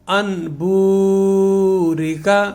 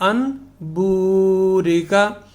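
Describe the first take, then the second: The two takes are said the same way.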